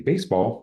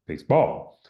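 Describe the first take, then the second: First: The stress falls on the first syllable only. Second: The stress falls on the second syllable only. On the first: The speaker calls it right. "like it should be" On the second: The speaker calls it wrong. "they're having a difficulty, you know, kind of modulating where the stress should be"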